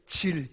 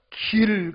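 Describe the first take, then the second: First: The word begins with a j sound. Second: The word begins with a g sound. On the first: This is how Gyeongsang speakers say it. "지 발음으로 대신한다는 거예요" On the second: This is the standard pronunciation. "길 갈 때"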